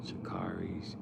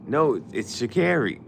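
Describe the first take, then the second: First: Sha'Carri said quietly with car, shuh-KAR-ee; soft, the wrong Sha'Carri like car. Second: Sha'Carri loud with care, shuh-KAIR-ee; firmly correct: Sha'Carri with care; loud correction. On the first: The host trying the name, wrong Sha'Carri like car. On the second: Correcting the host out loud, Sha'Carri with care. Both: Shown as a demonstration.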